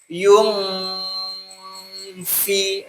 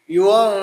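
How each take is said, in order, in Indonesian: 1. Mulut bergeser ke f setelah dengung sengau. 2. Mulut bergeser ke f selama dengung sengau. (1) "bukan gini" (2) "tapi yung nah gitu betul"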